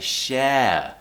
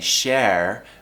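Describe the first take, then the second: First: The R sound is not pronounced. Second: The R sound is clearly pronounced. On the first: The speaker calls it right. "we say share" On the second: The speaker calls it wrong. "we don't say share"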